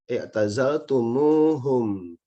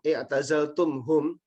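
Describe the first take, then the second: First: A linking u vowel joins the two parts. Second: The two parts are joined without a linking vowel. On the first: The speaker calls it right. "untuk mempermudah ucapan itu kemudian yang ditambahkan huruf wawu" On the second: The speaker calls it wrong. "ini diucapkan susah"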